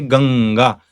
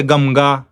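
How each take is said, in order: First: Ganga with held ng; Ganga, ng flowing into ga; correct velar anuswara. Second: Gamga with lips closed on m; Gamga, m before ga; wrong labial nasal. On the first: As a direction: say Ganga with back-of-mouth ng. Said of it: "We say". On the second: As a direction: say Gamga with a clear m. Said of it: "We don't say". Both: Shown as a demonstration.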